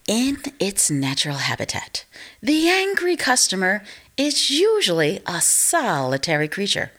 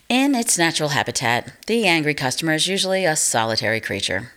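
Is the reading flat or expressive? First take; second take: expressive; flat. First: It is read expressively, with emotion. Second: It is read flatly, without emotion.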